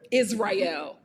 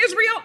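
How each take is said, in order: First: "Israel" said low as iz-rye-EL; corrected pronunciation. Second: "Israel" said as IZ-ree-el; mistaken pronunciation. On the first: Host fixing the name a friend corrected, "Israel" as iz-rye-el. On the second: Host naming where the couple met, "Israel" as IZ-ree-el. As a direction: say "Israel" with an EE in the middle. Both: Shown as a demonstration. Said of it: "one of my friends corrected me".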